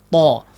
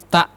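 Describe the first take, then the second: First: The t sound is thick and heavy. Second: The t sound is thin and light. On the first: The speaker calls it right. "to ini kuat ya Pak, ... ditebalkan" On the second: The speaker calls it wrong. "Jangan seperti tak"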